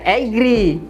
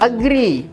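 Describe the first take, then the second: First: The first vowel is a full, open 'ah'. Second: The first vowel is a weak, reduced sound. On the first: The speaker calls it wrong. "kok nggak dibaca agree?" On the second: The speaker calls it right. "A dibaca E"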